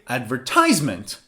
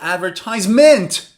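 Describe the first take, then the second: First: The stress is on the third syllable. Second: The stress is on the fourth syllable.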